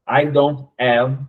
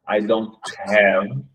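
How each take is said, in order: First: The last word starts without any h sound. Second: The last word starts with a breathy h sound. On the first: The speaker calls it wrong. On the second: The speaker calls it right. "e não I don't have"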